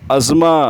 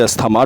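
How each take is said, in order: First: It is said like 'azma', without 'th'. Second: It is said with a clear 'sth' sound. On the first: The speaker calls it right. "Correct pronunciation इसका अजमा" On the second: The speaker calls it wrong. "This is a wrong pronunciation"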